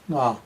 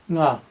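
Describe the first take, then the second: First: The word is said on a low pitch. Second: The word is said on a high pitch. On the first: It means oneself. "is a lower nga" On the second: It means five. "in central Tibet, it's a high nga"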